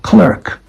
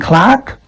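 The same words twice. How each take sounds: First: It is said in an American accent. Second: It is said in a British accent.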